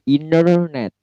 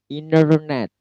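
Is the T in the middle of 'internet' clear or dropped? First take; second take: dropped; dropped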